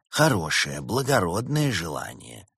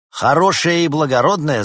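First: Gentle. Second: Loud, high sneering echo; mocking repetition. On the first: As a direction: praise it kindly and calmly. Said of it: "мягко сообщил дух зимы". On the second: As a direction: throw the words back scornfully. Doctor mocks the repeated words. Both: A narrator's reading.

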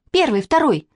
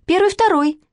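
First: High-pitched count-off, only mildly raised; child calling out. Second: Very high, piping count-off; little girl calling out. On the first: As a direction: pipe up like a girl on parade. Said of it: "крикнула Катя". (звонкий детский выкрик) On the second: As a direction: squeak out the drill response. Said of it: "крикнула Манечка". (выкрик совсем тоненьким детским голоском) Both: A narrator's reading.

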